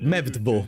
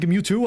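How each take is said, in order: First: The name is said with V sounds. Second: The name is said with W sounds. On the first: The speaker calls it wrong. "I always said uh, Mevdvo" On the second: The speaker calls it right. "instead of saying Mewtwo"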